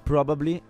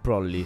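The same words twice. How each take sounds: First: All three syllables are pronounced in full. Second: It is contracted to two syllables, 'prolly'. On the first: "Da probably" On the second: "diventa probably"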